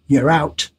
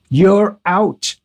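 First: Said in the usual way. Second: "You're out" firmly punched, each word set apart; retold dismissal, "You're out" stressed with finality; emphatic repeat. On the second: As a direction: hit both "You're" and "out" as a blunt verdict. Retold phone call, repeated for emphasis.

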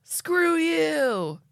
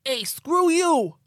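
First: Much higher, louder mock angry shout; angry dad voice. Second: Much higher, louder, slow hammed-up shout; dad voice. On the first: Showing how an angry dad sounds, in a mock shout. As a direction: snap it like a fed-up father. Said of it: "What's an angry dad voice?". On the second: Ed the abductee yelling at aliens in a hammed-up dad voice. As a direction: bellow like a cartoon dad. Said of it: "I'm just gonna do a dad voice".

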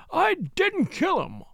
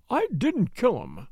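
First: Much higher, slow, almost screaming; near scream. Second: Said in the usual way. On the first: A narrator's reading. Butler denying the murder, almost screaming. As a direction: let the voice rise to a scream. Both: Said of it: "His voice rose almost to a scream".

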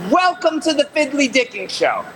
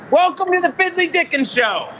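First: Lively show-host line, a little higher; announcer demo. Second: Much higher, big show-host call; hyped announcer demo. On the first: Host coaching a stranger, upbeat announcer read. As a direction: pitch it like a show intro. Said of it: "What I need you to say is". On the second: Host showing the guest how to announce, hyped. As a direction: sell it like opening a live show. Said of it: "Now, what we gotta do is". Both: Shown as a demonstration.

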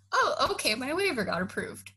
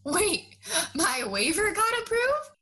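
First: Flat, offhand "Oh, okay, my waiver got approved" with a high start on Oh; deadpan echo of the news, a beat before it sinks in; casual mock acceptance. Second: High, rising "my waiver got approved?" as a stunned question; the news finally lands, much higher; double-take, voice climbing on "approved"; sudden disbelief. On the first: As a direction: shrug it off as if nothing happened. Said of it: "he said it so casually that I literally was like". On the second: Retold or imitated. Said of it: "And then I was like".

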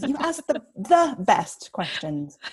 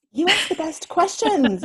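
First: Mean every word of it. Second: High and bright, ask stressed; delighted compliment. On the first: Slower, weighty repeat. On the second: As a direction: gush with delight. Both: Real, not acted.

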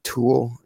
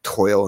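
First: Said in the usual way. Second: "toil" with an oy glide, for tool; drawn-out "toil" with oy in place of oo; Nebraskan pronunciation. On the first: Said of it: "toil instead of tool". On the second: Retold or imitated. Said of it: "they say, like, toil instead of tool".

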